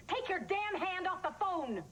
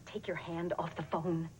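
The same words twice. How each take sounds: First: High, slow, emphatic yell; explode, drawing out each word; furious outburst. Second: Low-pitched, restrained order; controlled warning. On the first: Mother on the phone erupting at a captor, furious yell. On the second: Mother on the phone warning a captor, controlled order. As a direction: keep the warning level and controlled. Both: Acted.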